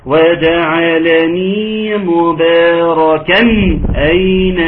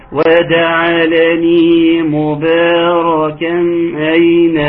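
First: مباركا اين with a clear separate nun, مباركن اين. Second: مباركا اين with the nun swallowed before اين; nunation hidden. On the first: Teacher demonstrating the correct clear nun. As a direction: sound the tanween of مباركا clearly before اين. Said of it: "اسمعوا كده". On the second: Teacher imitating people who do not pronounce the nun. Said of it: "الاقي اسمع ايه". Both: Shown as a demonstration.

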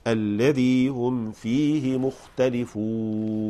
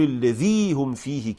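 First: الذي هم فيه مختلفون slow and even; correct reading. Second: الذي هم فيه overdone and fast; exaggerated reading. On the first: Teacher modelling the right way after the wrong one. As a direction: say it slowly and plainly. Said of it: "لا". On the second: Teacher mocking the overdone way to say it. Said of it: "ما في داعي نقول الذي هم فيه كده". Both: Shown as a demonstration.

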